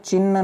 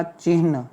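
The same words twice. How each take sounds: First: "चिन्ह" as chinna, no h; doubled-n "चिन्ह". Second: "चिन्ह" with h before the n; correct "चिन्ह". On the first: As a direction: hold the n of चिन्ह and drop the h. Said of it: "नहीं होता". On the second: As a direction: say चिन्ह as chihn. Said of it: "क्या होता". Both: Shown as a demonstration.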